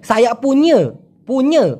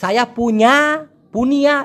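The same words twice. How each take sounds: First: "সায়া পুñe" with the last vowel as a schwa; colloquial pronunciation. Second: "সায়া পুña" ending in a long open a; unused written form. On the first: Teacher correcting to what is said, colloquial pronunciation. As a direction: end "পুñe" on a falling nyuh. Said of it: "বলে". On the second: Teacher showing what is not said, full-vowel pronunciation. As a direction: stretch the end of "পুña" to nyaah. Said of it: "এইসব কিছু বলে না". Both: Shown as a demonstration.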